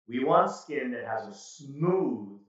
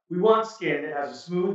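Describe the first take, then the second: First: The words are said at a slow pace. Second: The words are said at a fast pace. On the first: The speaker calls it right. "this is a perfect example of speaking slowly" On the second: The speaker calls it wrong. "Wow, there's a lot there"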